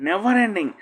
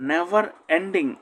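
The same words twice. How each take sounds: First: Said in the usual way. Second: Never ending said slowly with stress on Never; slow it down for learners; slow, careful classroom model; slow model reading. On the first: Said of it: "teacher repeats the phrase". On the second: Shown as a demonstration. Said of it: "teacher models the phrase slowly".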